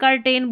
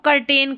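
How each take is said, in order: No difference in how they are said.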